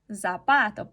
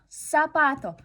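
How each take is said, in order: First: The word starts with a voiced buzzing sound. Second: The word starts with a voiceless hissing sound. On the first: This is how Russian speakers would read it. "nosotros vamos a decir zapato, zapato, porque empieza con una Z" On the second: This is how Spanish speakers say it. "Ustedes en español pueden decir zapato"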